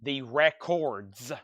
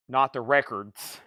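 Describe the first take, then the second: First: "The Records" slow, with a clear "or" in Records; correct pronunciation. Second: "not the Records" with a lazy, swallowed "er" in Records; wrong pronunciation. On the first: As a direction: stretch out "The Records", landing on a full "kordz". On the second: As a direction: say "Records" as "rekerdz", the vowel slurred. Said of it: "sounds like that with my accent". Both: Shown as a demonstration.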